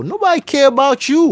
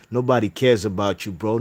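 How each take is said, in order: First: Yelled high and loud in outrage; furious high yell; angry shout. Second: Said in the usual way. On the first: Real, not acted. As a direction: shout it back, fed up. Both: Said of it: "I'm getting pissed".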